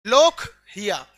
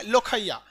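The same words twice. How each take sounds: First: लोकहिया loud and slow, split as लोक, then हिया; careful pronunciation. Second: Said in the usual way. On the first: Shown as a demonstration. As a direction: punch लोक, drop away on हिया. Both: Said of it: "ये थोड़ा सा pronunciation में drop होता है".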